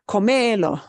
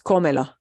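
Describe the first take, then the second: First: The stress is on the second syllable. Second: The stress is on the first syllable. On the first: The speaker calls it wrong. "It's not comelo" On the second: The speaker calls it right. "breaks the rule"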